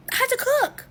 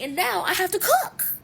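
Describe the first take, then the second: First: Higher and louder, near a shout on cook; I have to cook, pitched up and yelled; exasperated outcry. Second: Exasperated. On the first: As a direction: cry it out as the last straw. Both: Retold or imitated. Late, everyone waiting, exasperated.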